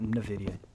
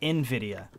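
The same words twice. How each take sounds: First: The name is said as one run-together word. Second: The letter N is said first, then Vidia. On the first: The speaker calls it wrong. "I was always pronouncing it as like one word" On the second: The speaker calls it right. "like you're pronouncing the letter first and then Vidia"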